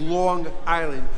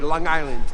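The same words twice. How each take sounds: First: Both words are pronounced fully and separately. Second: The words run together with sounds cut off. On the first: "The proper way of saying it is" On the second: "we cut off some of the adjectives of it, so we say"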